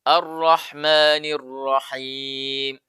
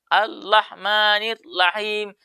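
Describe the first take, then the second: First: The r sounds are lightly trilled. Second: The r sounds are replaced by an l. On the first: The speaker calls it right. "maka harus ada getaran" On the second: The speaker calls it wrong. "Dia tidak menggetarkan lidahnya"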